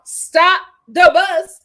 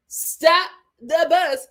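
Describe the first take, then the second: First: Slow, loud, higher stop the bus; drawn-out shout of stop the bus; exclaiming. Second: Slow emphatic echo. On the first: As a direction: stretch it out like a big announcement. Hyping Deontay's mama. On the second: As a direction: repeat it, drawn out and punchy. Repeated hype. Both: Real, not acted.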